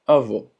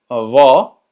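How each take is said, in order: First: Avó said with a closed final o; closed avô. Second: Avó with open, loud final o. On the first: Teacher repeats grandfather, avó with closed o. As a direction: round and close the last vowel of avó. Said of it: "que la pronunciación sea cerrada". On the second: Teacher repeats grandmother, open avó. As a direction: open the stressed ó of avó wide. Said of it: "el cual es abierto". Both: Shown as a demonstration.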